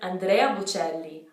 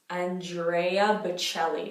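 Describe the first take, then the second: First: It is said with Italian sounds and vowels. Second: It is said with English sounds and vowels. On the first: The speaker calls it right. "Where we're supposed to pronounce it" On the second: The speaker calls it wrong. "which we usually say as"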